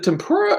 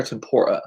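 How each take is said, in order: First: "tempura" said with an OO, tem-POO-ruh; pronunciation query. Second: "tempura" said with an OR, tem-POR-uh; alternative pronunciation. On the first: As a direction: say "tempura" with a POOR middle. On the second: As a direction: say "tempura" with a PORE middle. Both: Shown as a demonstration. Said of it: "is it tempura or tempura".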